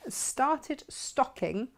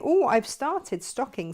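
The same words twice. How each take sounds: First: Slow careful. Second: Said in the usual way. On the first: Shown as a demonstration. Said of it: "Have I said that right?". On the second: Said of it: "That's why I can't say it fast".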